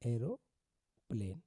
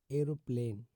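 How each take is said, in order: First: "एरोप्लेन" slowly, with a pause before "प्लेन"; split in two. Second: Said in the usual way. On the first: Shown as a demonstration. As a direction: break "एरोप्लेन" into "एरो" and "प्लेन". Teacher breaks word up for learners.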